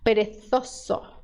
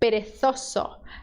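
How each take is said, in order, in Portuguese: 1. O z é falado com som de th. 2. O z é falado com som de th.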